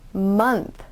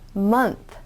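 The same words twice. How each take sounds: Both takes have the same delivery.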